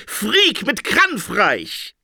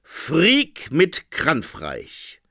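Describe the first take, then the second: First: Shouting. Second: Said in the usual way. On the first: A narrator's reading. Interpreter proclaims war to Phoenix, shouting. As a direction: proclaim it with alarm. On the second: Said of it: "stand da".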